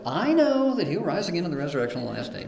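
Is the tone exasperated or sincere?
exasperated. It sounds annoyed and dismissive. The speaker accepts the doctrine but finds no comfort in it. "I kind of read it like"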